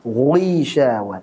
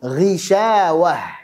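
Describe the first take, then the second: First: The gh sound is overly heavy before the i. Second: The gh sound is light before the i. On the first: The speaker calls it wrong. "berlebihan di dalam menebalkannya saat kasrah ... Yang salah adalah" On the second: The speaker calls it right. "Kita baca yang benar dulu"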